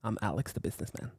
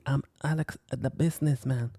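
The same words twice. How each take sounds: First: A hint of a smooth businessman introducing himself. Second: Said in the usual way. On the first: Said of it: "This is Alex the businessman talking again".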